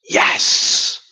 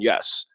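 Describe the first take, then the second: First: It is said with eager enthusiasm. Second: It is said hesitantly, without enthusiasm.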